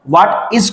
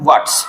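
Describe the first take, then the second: First: The two words are said separately. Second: The two words are joined into one.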